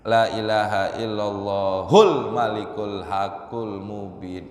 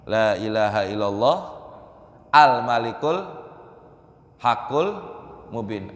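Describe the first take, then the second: First: Allah runs straight into 'hul' before malikul. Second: Allah is followed by a separate 'al' before malikul. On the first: The speaker calls it wrong. "karena kedengaran kayak begitu" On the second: The speaker calls it right. "Harusnya gimana?"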